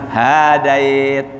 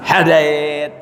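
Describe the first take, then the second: First: The first vowel is drawn out long. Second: The first vowel is kept short. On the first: Guidance is given to one another, as if mutual. The speaker calls it wrong. "Salah. Enggak panjang haknya tuh" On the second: Guidance is given by God alone. The speaker calls it right. "Jadi Allahumma hadina fi man hadait"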